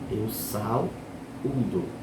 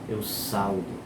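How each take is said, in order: First: The verb has three syllables, stressed ú. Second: The verb sounds like saldo, two syllables. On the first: It means I greet you. The speaker calls it right. "Essa é a forma correta de saudação" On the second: It sounds like a bank account balance. The speaker calls it wrong. "eu não posso dizer assim, eu saldo com L"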